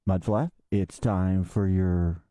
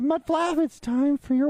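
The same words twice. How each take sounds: First: It is said in a deep, dark voice. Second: It is said in a lighter, brighter voice. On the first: The speaker calls it wrong. "not in that dark voice" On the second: The speaker calls it right. "more like"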